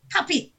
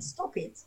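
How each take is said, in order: First: Sharp, higher "Tap it"; stern parent warning. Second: Whispered, polite "Stop it"; soft polite request. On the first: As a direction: snap it at a naughty child. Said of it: "give them the patois with the look". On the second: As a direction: ask gently and nicely. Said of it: "cannot do it decent and stylish in English". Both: Shown as a demonstration.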